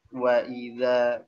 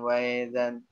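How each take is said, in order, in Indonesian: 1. Hentian glotal sebelum vokal itu jelas. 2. Hentian glotal itu dilunakkan dan kabur. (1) "mesti jelas dibacanya"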